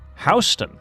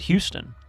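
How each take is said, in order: First: It is said differently from the Texas city name. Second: It is said like the familiar Texas city name. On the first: This is how the town's locals say it. The speaker calls it right. "They pronounce it Houston" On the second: This is how the town's name is not said. The speaker calls it wrong. "they don't pronounce it Houston"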